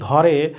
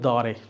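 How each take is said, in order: First: The first consonant is aspirated. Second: The first consonant is unaspirated. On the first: The speaker calls it right. "যদি লেখো ধরে" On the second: The speaker calls it wrong. "ওরা বলবে দরে"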